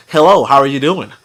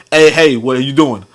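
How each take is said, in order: First: Careful, standard phone voice; lightly imitated proper phone greeting. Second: Lightly imitated casual phone greeting; casual, relaxed phone voice.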